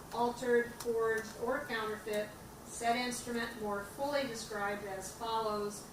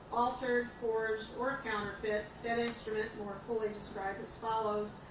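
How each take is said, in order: Both takes have the same delivery.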